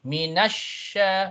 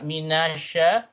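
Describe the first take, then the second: First: The middle consonant is doubled and stressed. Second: The middle consonant is short and single. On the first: The speaker calls it right. "you lift up one notch" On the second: The speaker calls it wrong. "not minasha"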